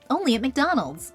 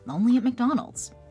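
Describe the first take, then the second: First: It sounds showy, performed and unnatural. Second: It sounds relaxed, natural and conversational. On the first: "It sounds performative and fake" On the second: "in a John Krasinski conversational tone"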